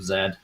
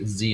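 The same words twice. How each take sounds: First: The letter is said with a non-American pronunciation. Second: The letter is said with an American pronunciation. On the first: It is the speaker's original form. The speaker calls it wrong. "instead of Z" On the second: It is the form adopted so Americans understand. The speaker calls it right. "say Z instead of Z"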